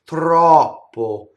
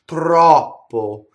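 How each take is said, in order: The two takes are said the same way.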